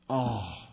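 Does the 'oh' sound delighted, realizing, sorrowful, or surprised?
sorrowful. It is said in a sad, disappointed tone. The speaker is sad or disappointed. "or sorrow, something of that, right? Disappointment, sorrow"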